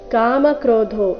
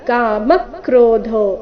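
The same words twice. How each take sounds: First: The syllable 'ma' carries no stress. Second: The syllable 'ma' carries clear stress. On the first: The speaker calls it wrong. "ಈ ರೀತಿ ಇಲ್ಲ" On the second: The speaker calls it right. "ಮ ಮೇಲೆ ಕದ್ದು ಆಘಾತ"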